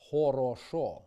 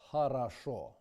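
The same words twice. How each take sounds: First: Хорошо with every o kept as a full round o, oro-sho; wrong regional o. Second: Хорошо with unstressed o as a, harasho; correct reduced o. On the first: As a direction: say хорошо as horosho, all o round. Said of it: "For example ... versus". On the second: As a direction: reduce the first o's of хорошо to a. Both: Shown as a demonstration.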